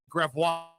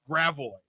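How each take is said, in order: First: The name is said the original French way. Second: The name is said the local American way. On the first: This is how the name is properly said. The speaker calls it right. "We can just pronounce it Gravois" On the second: This is how locals say the name. The speaker calls it wrong. "Why do we pronounce it Grav Gravois? That's wrong"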